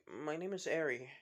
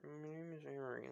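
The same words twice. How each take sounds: First: Said in the usual way. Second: Soft, indistinct mumbled introduction; mumbling. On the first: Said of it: "With Izuku saying, "Huh?". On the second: Acted. Shy girl telling Izuku her name, mumbling. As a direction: mumble it shyly under your breath. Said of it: "like, mumbling".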